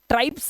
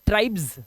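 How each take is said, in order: First: The word ends with a hissing s sound. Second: The word ends with a buzzing z sound. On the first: The speaker calls it wrong. "इसे ट्राइब्स नहीं पढ़ेंगे" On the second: The speaker calls it right. "इसका उच्चारण ना जा का आता है"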